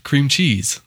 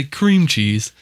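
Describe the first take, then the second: First: Weight moved onto CHEESE in cream cheese; local stress. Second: CREAM punched and drawn out, cheese dropping; slow, mimicked CREAM cheese; Californian stress. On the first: Shown as a demonstration. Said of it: "and we say it". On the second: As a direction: exaggerate the weight on CREAM. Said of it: "wrong emphasis on the wrong syllable".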